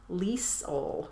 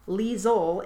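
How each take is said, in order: First: The middle consonant is an S sound. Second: The middle consonant is a Z sound. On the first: "some Americans pronounce it Liesel with an S instead of a Z" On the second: "it's Liesel is how she pronounces it"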